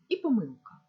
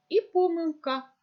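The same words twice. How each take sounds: First: Помилка with the stress on the middle syllable, помИлка; second stress variant. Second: Помилка with the stress on the first syllable, пОмилка; first stress variant. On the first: Teacher demonstrating to pupils the second allowed stress, помилка as помИлка. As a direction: say "помилка" as помИлка, settling down. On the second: Teacher demonstrating to pupils the first allowed stress, помилка as пОмилка. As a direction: read "помилка" as пОмилка, higher and louder. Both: Shown as a demonstration. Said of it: "це слово має подвійний наголос".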